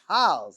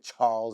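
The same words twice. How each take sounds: First: The word is said in a Boston accent. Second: The word is said in a standard accent. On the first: This is how locals say it. "That's a Boston accent" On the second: This is not how locals say it. "they don't say the Charles River"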